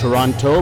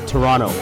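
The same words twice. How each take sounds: First: The second T is clearly pronounced. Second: The second T is dropped. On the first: This is the standard way the name is written. "So it's Toronto" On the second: This is how local people say the name. "but we say Toronto"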